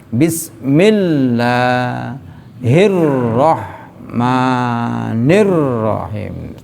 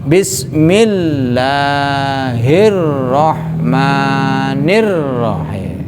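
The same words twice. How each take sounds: Both takes have the same delivery.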